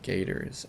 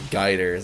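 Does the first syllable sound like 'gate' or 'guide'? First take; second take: gate; guide. First: The first syllable sounds like 'gate'. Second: The first syllable sounds like 'guide'. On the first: "like a gate" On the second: "You said guiders"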